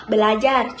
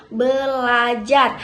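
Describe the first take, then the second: First: Said in the usual way. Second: Belajar said slowly as be-la-jar, syllable by syllable; slow syllable split. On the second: Shown as a demonstration. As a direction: draw belajar out one syllable at a time. (belajar dipenggal pelan per suku kata)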